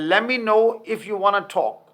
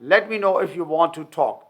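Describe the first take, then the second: First: 'Want to' is reduced to a blended 'wanna'. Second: 'Want to' is said as two full words.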